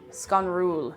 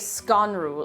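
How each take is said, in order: First: The stress is on the second syllable. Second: The stress is on the first syllable. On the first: "the emphasis is on the second syllable" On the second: "You wouldn't say Sconrúil"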